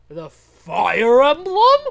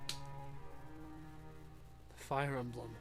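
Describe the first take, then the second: First: It is said as a question, rising. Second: It is said as a statement, falling.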